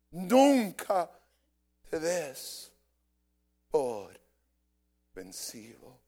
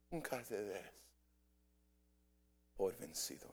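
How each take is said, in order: First: Preacher's emphatic start dropping off; loud then fading. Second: Nunca te des por vencido said softer and lower, almost to himself; hushed echo of the preacher's call; soft repeat. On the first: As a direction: hit Nunca hard and let vencido fall away. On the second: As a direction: echo the charge quietly. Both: Acted.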